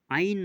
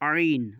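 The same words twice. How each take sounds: First: The first sound is made without throat constriction. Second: The first sound is squeezed from mid-throat. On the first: The speaker calls it wrong. "আইন নয়" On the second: The speaker calls it right. "আইনটা ওখান দিয়ে বার করতে হবে"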